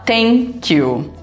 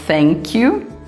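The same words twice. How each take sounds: First: It begins with a sound other than th. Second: It begins with a soft, half-F th sound. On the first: The speaker calls it wrong. "muita gente acaba falando" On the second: The speaker calls it right. "ao invés de falar thank, or thank you"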